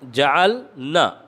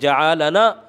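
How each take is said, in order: First: The 'l' has no vowel after it. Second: The 'l' is followed by a vowel. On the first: We made. The speaker calls it right. "लाम के सुकून के साथ" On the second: He made us. The speaker calls it wrong. "लाम के सुकून को हरकत पढ़ दी"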